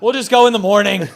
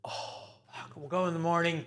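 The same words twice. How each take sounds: First: Loud, high, laughing mock plea; exasperated promise, pitched way up; pleading dad. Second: Higher, softer mock exasperation; resigned, hushed parental groan; weary dad. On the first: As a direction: call it out over the top, half laughing. Dad's louder repeat to child. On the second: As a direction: sigh it out under your breath, caught out. Dad's weary reaction, retold.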